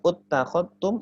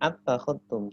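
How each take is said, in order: First: The word begins with a u vowel. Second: The word begins with an a vowel. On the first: "bukan uttakhadtum" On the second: "atau attakhadtum"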